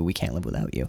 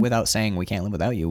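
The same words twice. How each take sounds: First: Hushed, tender whisper of a confession; soft unspoken plea. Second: Said in the usual way. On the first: Retold or imitated. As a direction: drop low and soft, almost to yourself. Voicing the unspoken line softly.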